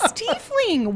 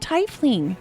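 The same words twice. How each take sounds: First: The first syllable sounds like 'tee'. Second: The first syllable sounds like 'tie'. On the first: The speaker calls it right. "It's tiefling" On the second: The speaker calls it wrong. "Why would you ever pronounce it tiefling?"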